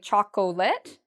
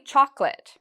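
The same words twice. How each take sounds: First: The word is said with three syllables. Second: The word is said with two syllables. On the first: The speaker calls it wrong. "many students will say chocolate" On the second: The speaker calls it right. "but it's actually chocolate. it's two parts to that word"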